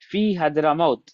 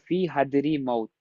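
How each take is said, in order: First: The vowel after 'hadr' is 'a'. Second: The vowel after 'hadr' is 'i'. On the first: The speaker calls it right. "ये हदरा मौत का जो रॉ है ये नहीं बदलेगा" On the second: The speaker calls it wrong. "ऐसे नहीं होगा"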